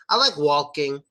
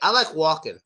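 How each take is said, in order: First: The L in walking is pronounced with the tongue. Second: The L in walking is dropped, tongue stays down. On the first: "Use your tongue, make the L sound" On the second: "My tongue is actually down"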